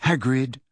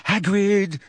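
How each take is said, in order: First: Put-on lightly breathless girl's voice. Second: Put-on high, frightened girl's call; terrified, high-pitched. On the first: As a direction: say his name slightly winded. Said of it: "said Hermione breathlessly". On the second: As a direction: plead his name in fear. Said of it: "in a high-pitched and terrified voice". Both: A narrator's reading.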